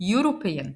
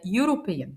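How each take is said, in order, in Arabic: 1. تبدأ الكلمة بصوت Y. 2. تبدأ الكلمة بصوت Y.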